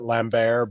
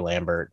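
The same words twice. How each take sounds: First: The name is said with a French pronunciation. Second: The name is said with an American pronunciation. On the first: This is how the man says his own name. "he's French, so he probably pronounces it Lambert" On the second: This is how Americans say the name. "the American version of it is definitely Christopher Lambert"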